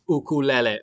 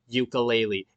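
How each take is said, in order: First: It is said the preferred way. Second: It is said the common, disliked way. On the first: The speaker calls it right. "It's ukulele" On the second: The speaker calls it wrong. "stop pronouncing it ukulele"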